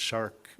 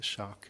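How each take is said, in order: First: The r sound after the vowel is pronounced. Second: The r sound is dropped, like shock. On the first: "it's shark" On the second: "There's no R's, like shock"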